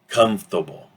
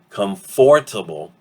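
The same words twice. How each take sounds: First: The middle sounds are dropped, contracting the word. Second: Every syllable of the word is fully pronounced. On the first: "we get comfortable, that first O is reduced to an apostrophe. The O R disappears completely" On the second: "So from comfortable"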